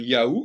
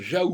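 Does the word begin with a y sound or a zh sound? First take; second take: y sound; zh sound. First: The word begins with a y sound. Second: The word begins with a zh sound. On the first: The speaker calls it wrong. "Il ne faut pas dire Yahou" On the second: The speaker calls it right. "il faut dire Jaou"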